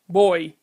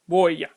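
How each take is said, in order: First: The word ends in a vowel sound. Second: The word ends with a consonant y sound. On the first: The speaker calls it right. "the Y takes on vocalic properties and is pronounced like the Spanish I" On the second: The speaker calls it wrong. "and not boya"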